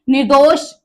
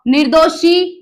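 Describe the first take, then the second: First: निर्दोष said with no final vowel, clipped at ष; निर्दोष ending cleanly on ष, as the right spelling; correct form shown. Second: निर्दोषी said with a long final ई, as the mistake; निर्दोषी, the long ई ending the error to avoid; wrong form shown. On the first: Teacher gives students the correct word, firm. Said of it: "निर्दोष होता है". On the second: Teacher shows students the wrong word, plain. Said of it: "निर्दोषी कोई शब्द नहीं है". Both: Shown as a demonstration.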